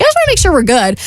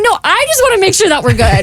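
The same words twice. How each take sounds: First: Reassuring friend. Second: High-pitched, emphatic "No, I just wanna", turning it back on the friend; insistent echo. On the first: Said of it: "she's like". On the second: Apologetic friend answers the one she let down, high-pitched and insistent. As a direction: insist right back, pitched well up, leaning on "I". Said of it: "I'm like". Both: Retold or imitated.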